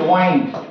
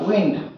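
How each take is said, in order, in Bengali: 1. এই স্বরধ্বনিটি লম্বা 'eye' ধ্বনি। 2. এই স্বরধ্বনিটি ছোট 'ih' ধ্বনি। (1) "আর যদি ওয়াইন্ড বলি" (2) "একটা হচ্ছে যখন উইন্ড হবে"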